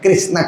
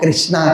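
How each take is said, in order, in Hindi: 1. नाम का अंत अंतिम व्यंजन-गुच्छ पर होता है। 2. नाम के अंत में एक अतिरिक्त लंबा 'a' स्वर जुड़ता है। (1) "कृष्ण को कृष्ण ही कहेंगे" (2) "कृष्णा कहते हैं ना"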